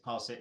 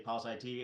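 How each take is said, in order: First: The ending is said as the word it. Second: The ending is spelled out as two letters. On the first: The speaker calls it right. "the I T is pronounced it" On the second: The speaker calls it wrong. "Don't say pulse I T"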